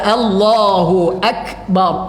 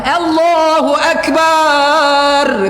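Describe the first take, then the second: First: The vowel after b in akbar is short. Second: The vowel after b in akbar is drawn out. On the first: The speaker calls it right. "Pendek-pendek aja" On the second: The speaker calls it wrong. "Tidak boleh dipanjangkan ba pada akbarnya"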